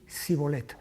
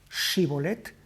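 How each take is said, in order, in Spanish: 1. La palabra empieza con un sonido s simple. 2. La palabra empieza con un sonido sh. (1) "no podía pronunciarlo correctamente" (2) "diferencia en el habla entre la sh y la s"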